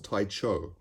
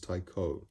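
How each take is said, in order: First: The middle consonant sounds like ch. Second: The middle consonant sounds like k. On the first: The speaker calls it wrong. "which I used to think was pronounced Taicho" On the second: The speaker calls it right. "but apparently it's Taiko"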